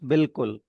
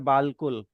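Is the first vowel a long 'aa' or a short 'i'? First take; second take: i; aa. First: The first vowel is a short 'i' sound. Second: The first vowel is a long 'aa' sound. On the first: "अलिफ की sound जेर से replace हो गई, तो it becomes बिल्कुल" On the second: "यहाँ लिखा है बालकुल"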